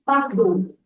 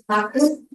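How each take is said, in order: First: The final consonant is dropped. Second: The final consonant is pronounced. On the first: This is the local dialect form. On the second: This is the standard form.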